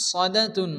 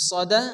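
First: Said in the usual way. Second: সদা ending in a breathed h; final ta as ha. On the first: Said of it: "এখানে তা". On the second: Shown as a demonstration. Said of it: "হা সেকেন্ডে পরিণত হবে".

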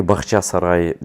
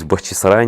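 First: "Бахчасарай" with ча in the middle, the wrong form; wrong Bakhchasarai. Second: "Бахчисарай" with a clear и in the middle, Бах-чи-са-рай; correct Bakhchysarai. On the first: Vlogger showing viewers the wrong version, demo of mispronunciation. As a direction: say "Бахчасарай" with an а after Бах. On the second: Vlogger correcting the name for viewers, careful correct pronunciation. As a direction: say "Бахчисарай" with чи, not ча. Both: Shown as a demonstration. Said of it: "не Бахчасарай".

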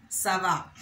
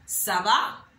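First: Ça va. said with a falling tone. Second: Ça va? lifted as a question; rising question. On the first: Teacher showing the answer Ça va. with a falling tone. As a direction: answer Ça va. letting the pitch fall. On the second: Teacher showing the question Ça va? rising. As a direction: ask Ça va? with a rising tune. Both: Shown as a demonstration. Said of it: "with a falling tone now".

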